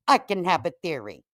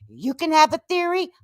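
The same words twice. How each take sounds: First: "I can have a theory" dropped down, falling end; firm comeback. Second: "You can have a theory" pitched high, stressing "have"; mocking challenge. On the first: Acted. Host matching Julie, "I can have a theory" as a settled comeback. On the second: Host challenging Julie's double standard, "You can have a theory" as a high challenge. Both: Tit-for-tat retort to Julie.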